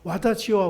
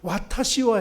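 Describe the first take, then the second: First: The middle consonant is a voiced D sound. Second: The middle consonant is a clear T sound. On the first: The speaker calls it wrong. "와다시와 와다시 하니까" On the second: The speaker calls it right. "와타시와 해야 되는데"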